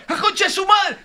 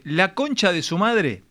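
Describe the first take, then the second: First: High-pitched shouted curse of release; grito de gol. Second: Said in the usual way. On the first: Shown as a demonstration. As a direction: yell it out as if your team just scored. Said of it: "cómo se gritan los goles en la cancha". (puteada gritada de gol)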